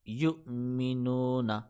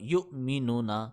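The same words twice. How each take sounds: First: The vowel in 'nu' is drawn out long. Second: The vowel in 'nu' is cut short. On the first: The speaker calls it right. "मैंने नू को खींच दी, हालांकि खींचना था उसने, पहले ठीक पढ़ा था।" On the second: The speaker calls it wrong. "उसने दोबारा जब पढ़ा तो गलत पढ़ा।"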